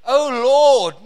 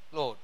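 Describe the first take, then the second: First: "Oh Lord" cried out loud, with feeling; "Oh Lord" called out, not a bare name; heartfelt "Oh Lord". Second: Said in the usual way. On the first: Shown as a demonstration. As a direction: swell on "Oh Lord" like a real prayer. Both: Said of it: "not just".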